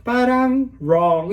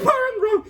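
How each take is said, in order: First: Said in the usual way. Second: Very high chipmunk-like repeat; comic high-pitched replay; squeaky replay. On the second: Real, not acted. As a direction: repeat it as a tiny squeaky echo.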